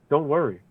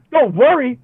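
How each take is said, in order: First: Soft, hushed don't worry; soothing. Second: High, disbelieving echo of don't worry; incredulous. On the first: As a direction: murmur it gently to calm someone. Loved ones soothing him. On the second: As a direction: fling it back in outraged disbelief. Throws their words back. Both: Retold or imitated.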